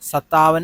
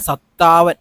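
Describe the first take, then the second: First: The t sound is short and single. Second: The t sound is doubled and held. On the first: The speaker calls it wrong. "അല്ല" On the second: The speaker calls it right. "ഇത് രണ്ടു വട്ടം താ പറയണം"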